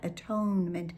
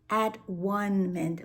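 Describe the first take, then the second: First: The word is said as a-tone-ment. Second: The word is said as at-one-ment. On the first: There is something one must ask forgiveness for. "atonement does have a different energy about it" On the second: Everything is at one together. "I like that pronunciation because it just really does bring things together"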